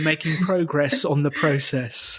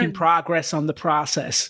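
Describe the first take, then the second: First: It is said with a British accent. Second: It is said with an American accent. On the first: "If we're English, we would say" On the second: "If we're American, we would say"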